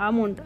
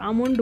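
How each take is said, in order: Both takes have the same delivery.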